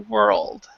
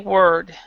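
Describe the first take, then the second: First: A clear L sound comes before the D. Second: The L sound is left out before the D. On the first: The speaker calls it right. "we need to actually pronounce that L" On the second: The speaker calls it wrong. "a lot of people will skip, will miss the L, and they'll just say word"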